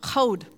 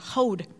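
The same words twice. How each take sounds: First: The word begins with a harsh throaty ch sound. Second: The word begins with a soft breathy h sound. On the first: The speaker calls it wrong. "Sorry, I said that wrong" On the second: The speaker calls it right. "Because it's hey"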